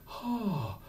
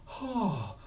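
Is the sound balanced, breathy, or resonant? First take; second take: breathy; breathy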